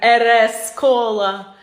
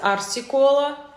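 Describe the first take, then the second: First: The letters are read aloud as 'er es'. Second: The letters are read aloud as 'ar si'. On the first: The speaker calls it wrong. "когда я записывала первое видео, я не знала, как правильно читать" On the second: The speaker calls it right. "правильно считается арси-кола"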